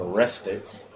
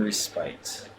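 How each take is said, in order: First: "respite" stressed on the first syllable; "respite" as RES-pit; alternate pronunciation. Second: "respite" with a long i ending; "respite" as re-SPITE; alternate pronunciation. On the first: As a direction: say "respite" with a short, unstressed ending. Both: Shown as a demonstration. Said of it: "how they pronounce it".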